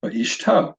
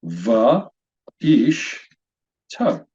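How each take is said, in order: First: Va, ish, to joined into one word; syllables put together. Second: Va, ish, to as three separate syllables; syllable-by-syllable demonstration. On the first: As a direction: blend va, ish, to without pauses. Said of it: "Put those together". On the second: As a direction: pause after each of va, ish, to. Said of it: "three syllables. This word is pronounced". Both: Shown as a demonstration.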